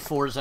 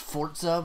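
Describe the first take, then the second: First: The middle consonant is a plain z sound. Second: The middle consonant is a ts sound. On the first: This is how the speaker personally says it. "I say Forza" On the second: This is the official pronunciation. "why didn't they put a T?"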